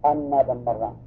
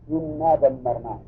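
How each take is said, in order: First: The first word begins with an 'a' vowel. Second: The first word begins with an 'i' vowel. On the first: It explains what the outcome was. "قراءة فتح الهمزة" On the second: It starts a new sentence explaining the outcome. "وكسرها"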